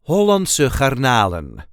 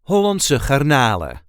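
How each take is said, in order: First: The final N sound is pronounced. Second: The final N sound is dropped.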